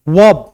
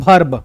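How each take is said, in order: First: It starts with a v sound. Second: It starts with a bh sound. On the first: The speaker calls it right. "व होना चाहिए" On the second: The speaker calls it wrong. "लेकिन आप बोलते हो भर्ब"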